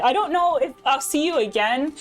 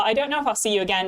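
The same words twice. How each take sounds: First: Said in the usual way. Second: Quick, put-on British accent; bad British accent. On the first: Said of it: "just decided to, uh, throw some bad British accent". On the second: Streamer redoing the remark to Layla, bad British accent. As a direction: repeat it in a jokey bad British voice. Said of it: "throw some bad British accent at y'all".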